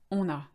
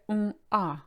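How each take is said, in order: First: The two words are linked into one sound. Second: The two words are said separately, without linking. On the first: The speaker calls it right. "we like to link the two together" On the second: The speaker calls it wrong. "we don't say on a, as we should really"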